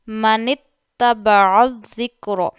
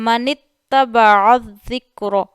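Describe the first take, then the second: No difference in how they are said.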